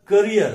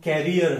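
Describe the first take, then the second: First: करियर with a short "kuh" first syllable; career pronunciation. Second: कैरियर with an open "kai" first syllable; carrier pronunciation. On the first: Teacher telling apart two confused words, career pronunciation. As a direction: say करियर as kuh-REE-yer. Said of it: "और सीएआरईईआर". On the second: Teacher telling apart two confused words, carrier pronunciation. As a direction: say कैरियर as KAE-ri-yer. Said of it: "अगर सीएआरआरआईईआर है तो वो". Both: Shown as a demonstration.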